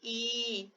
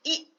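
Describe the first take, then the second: First: ई drawn out to double length, and softer; long vowel ii. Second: ई said short, a quick single beat; short vowel i. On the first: Teacher contrasting vowel lengths: long ई drawn out. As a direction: stretch ई over two beats. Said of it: "ये थोड़ा खींचा हुआ है". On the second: Teacher contrasting vowel lengths: short ई said quickly. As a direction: clip ई off quickly. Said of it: "बहुत simple है, थोड़े से समय में हो जाता है". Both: Shown as a demonstration.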